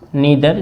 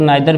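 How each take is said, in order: First: The first vowel sounds like 'ee'. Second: The first vowel sounds like 'eye'. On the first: "नीदर आता है" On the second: "जिसको नाइदर भी बोल सकते हैं"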